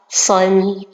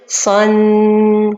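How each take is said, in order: First: The final nasal sound is held briefly. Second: The final nasal sound is held too long. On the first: The speaker calls it right. "Ça, c'est la prononciation correcte" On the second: The speaker calls it wrong. "L'erreur, c'est de dire son. on a rajouté beaucoup de temps"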